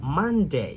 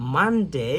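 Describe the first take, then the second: Both takes have the same delivery.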